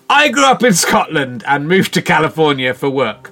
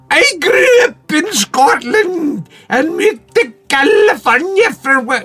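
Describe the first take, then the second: First: It is said in his own natural voice. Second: It is said in a put-on voice.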